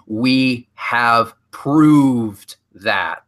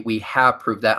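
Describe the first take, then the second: First: It is said slowly and deliberately. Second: It is said at normal speed.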